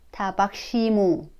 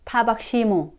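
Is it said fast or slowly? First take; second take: slowly; fast. First: It is said at a slower pace. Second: It is said at a faster pace.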